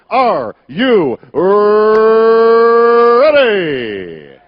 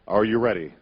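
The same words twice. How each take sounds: First: It is said louder with a rolled r. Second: It is said at normal volume.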